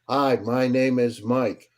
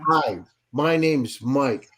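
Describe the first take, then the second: First: The voice is flat and low in energy. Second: The voice is lively and full of energy. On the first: The speaker calls it wrong. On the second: The speaker calls it right.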